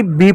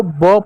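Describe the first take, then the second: First: बी said as the full English letter name with a long ee. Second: ब said as a short sound, just the consonant with a light vowel; letter sound. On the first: Teacher contrasts it for children: full letter name बी. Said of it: "ना कि बी पढ़ रहे हो". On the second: Teacher shows children the sound of B: short ब. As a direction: say ब as a bare sound, not the letter name. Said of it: "इस बी को ब पढ़ रहे हो". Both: Shown as a demonstration.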